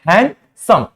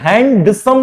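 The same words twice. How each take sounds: First: No d sound is pronounced after the n. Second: A d sound is pronounced after the n. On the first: The speaker calls it right. "इसको हम क्या पढ़ते हैं?" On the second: The speaker calls it wrong. "इसको हम हैंडसम नहीं पढ़ते हैं"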